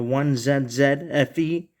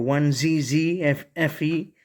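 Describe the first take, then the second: First: The letters are said the Canadian way. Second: The letters are said the American way. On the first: "pronunciation uh, is different because I live in Canada" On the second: "if you live in the U S A"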